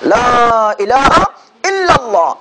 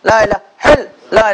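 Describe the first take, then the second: First: The opening 'la' is held long before the rest. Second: The opening 'la' is short and the phrase slurred. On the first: The speaker calls it right. "লা তিন আলিফ টান" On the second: The speaker calls it wrong. "এক এক স্টাইলের এক এক রকমের করে আমরা জিকির করে যাচ্ছি"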